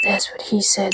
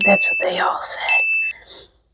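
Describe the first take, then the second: First: Said in the usual way. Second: Slow, secret whisper to finish the joke; whispered punchline. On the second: Pretend. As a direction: drop to a slow whisper for the tag line.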